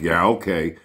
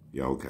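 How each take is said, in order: First: It sounds annoyed and angry. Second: It sounds relaxed and friendly.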